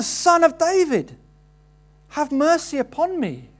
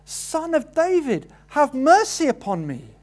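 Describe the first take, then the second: First: A higher, louder, desperate shout for mercy; even louder cry. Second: A high, pleading cry for mercy, not yet at full force; beggar crying out. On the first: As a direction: shout it over the crowd, begging. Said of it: "even louder". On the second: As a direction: call out to Jesus for mercy, hold something back. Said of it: "he shouts out". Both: Acted.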